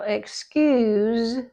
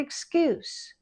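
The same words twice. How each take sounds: First: It ends with a voiced z sound. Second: It ends with a voiceless s sound. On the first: It is a verb meaning to let off. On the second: It is a noun meaning a reason.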